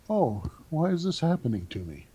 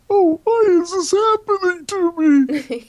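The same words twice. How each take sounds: First: It sounds curious, like an interested student. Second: It sounds self-pitying, like a complaining victim.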